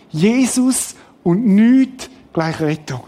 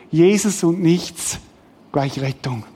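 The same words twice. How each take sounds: First: Weighty stress on "Jesus" and "nichts", pausing after each; emphatic formula. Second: Said in the usual way. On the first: Shown as a demonstration. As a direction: slowly hammer home JESUS and NICHTS.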